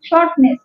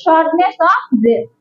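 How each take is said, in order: First: Said in the usual way. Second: Each word of shortness of breath drawn out very slowly for writing down; dictating shortness of breath at a crawl; slow dictation. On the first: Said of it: "S H O R T". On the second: Shown as a demonstration. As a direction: spell it out slowly so the class can copy it. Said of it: "লিখে রাখেন".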